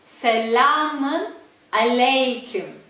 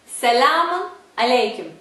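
First: It is said slowly. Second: It is said at normal speed.

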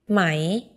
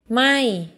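First: The pitch starts low and rises. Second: The pitch starts high and falls. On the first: It means silk. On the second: It means not or burning.

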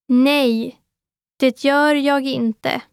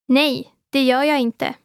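First: It is said slowly. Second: It is said at normal speed.

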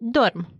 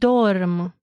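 First: It is said at natural speed. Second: It is said slowly.

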